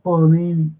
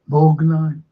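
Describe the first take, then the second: First: The name ends with a final 'ee' vowel. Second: The name ends without a final vowel. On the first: This is the original Italian form of the name. "not Bornini" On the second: This is the anglicized form of the name. "they just dropped the O and they just pronounced it"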